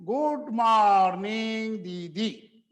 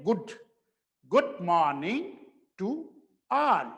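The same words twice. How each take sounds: First: Good morning दीदी stretched long and slow; children's sing-song. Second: Good with a short u vowel, not stretched; short correct good. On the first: Retold or imitated. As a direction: mimic kids chanting "Good morning दीदी". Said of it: "ऐसा लंबा करके बोलते हैं". (बच्चों जैसा खींचकर बोलना) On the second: Shown as a demonstration. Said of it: "तो क्या बोलेंगे". (छोटा उ वाला good)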